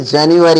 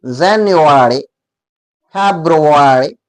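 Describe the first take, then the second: First: जनवरी said as "jen-war", the mistaken way; wrong pronunciation. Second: जनवरी as "zen-o-wary" and फरवरी as "heb-ro-wary", rounded and very slow; correct pronunciation. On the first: Teacher showing students the wrong way to say जनवरी. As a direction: show how जनवरी is wrongly said. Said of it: "ये भी गलत है". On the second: Teacher modelling the correct pronunciation of जनवरी and फरवरी, very slowly. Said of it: "उसका शुद्ध उच्चारण होगा". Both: Shown as a demonstration.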